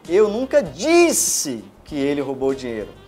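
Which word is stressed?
disse. The stress is on the word disse.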